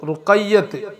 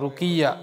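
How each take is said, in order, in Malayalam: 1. പേരിൽ ഇരട്ട 'y' ഉണ്ട്, 't' യിലാണ് അവസാനിക്കുന്നത്. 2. പേര് ചെറുതാണ്, സ്വരാക്ഷരത്തിലാണ് അവസാനിക്കുന്നത്. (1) "എന്നാണ് പറയേണ്ടത്" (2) "അത് തെറ്റാ"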